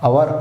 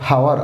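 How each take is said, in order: First: The word begins directly with a vowel sound. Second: The word begins with an audible h sound. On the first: The speaker calls it right. "అవర్ అంటాం" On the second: The speaker calls it wrong. "అంతేగాని హవర్ అనం"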